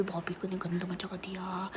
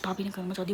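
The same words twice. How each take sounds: First: Whisper. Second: Said in the usual way. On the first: Shown as a demonstration.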